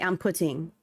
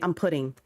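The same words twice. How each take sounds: First: The T in putting is crisply pronounced. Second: The T in putting is softened and run through. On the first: This is how people outside California say it. "We don't say" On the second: This is how Californians say it. "We say, ... We don't enunciate the T. We just kind of run through it"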